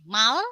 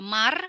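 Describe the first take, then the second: First: The word ends with an l sound. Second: The word ends with an r sound. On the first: The speaker calls it right. "tapi justru dibacanya jadi mal" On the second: The speaker calls it wrong. "bukan lagi dibacanya di sini ada mar"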